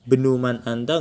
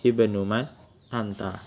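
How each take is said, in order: First: It starts directly on the b consonant. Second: It starts with an i vowel before b. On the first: The speaker calls it wrong. "nggak bisa langsung benuman anta, nggak bisa" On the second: The speaker calls it right. "Harus pakai kasroh"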